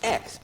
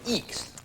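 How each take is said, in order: First: It is said like the letter X. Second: It is said with a long ee vowel. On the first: The speaker calls it right. "it's X, but it's E C K S" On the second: The speaker calls it wrong. "seems like it would be Eeks"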